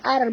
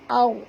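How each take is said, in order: First: The sound is light and thin. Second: The sound is heavy and thick. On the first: The speaker calls it wrong. "bukan ar bunyi dia" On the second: The speaker calls it right. "tapi au tebal ya"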